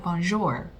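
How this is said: The R is strong, with an American accent. The speaker calls it wrong. "people will emphasize the R... I think that's a very American way of saying it"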